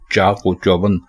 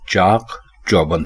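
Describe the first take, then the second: First: An 'o' sound links chaak and chauband. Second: Chaak and chauband are said without a linking 'o'. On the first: The speaker calls it wrong. "लेकिन ये गलत कहा जाता है" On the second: The speaker calls it right. "बल्कि चाक चौबंद है"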